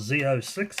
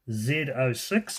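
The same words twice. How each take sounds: First: Z is said as zee, American style. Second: Z is said as zed, New Zealand style.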